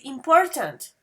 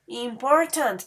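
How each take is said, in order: First: Said in the usual way. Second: "Important" slowly split into three syllables. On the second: Shown as a demonstration. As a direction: sound out every syllable of "Important". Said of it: "The same thing happens here".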